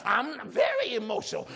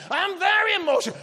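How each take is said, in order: First: Said in the usual way. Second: Excited. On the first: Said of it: "when it comes to dancing". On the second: Acted. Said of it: "other kind of thing".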